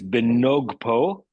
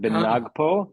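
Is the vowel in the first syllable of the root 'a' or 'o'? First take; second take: o; a. First: The vowel after the n sounds like 'o'. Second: The vowel after the n sounds like 'a'. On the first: The speaker calls it right. "It's benogpo" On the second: The speaker calls it wrong. "not benagpo"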